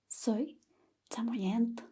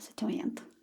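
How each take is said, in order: First: The phrase is spoken slowly and carefully. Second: The phrase is spoken quickly, as in conversation. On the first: "Nunca le van a hablar a esa velocidad" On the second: "Pero más rápido, por supuesto"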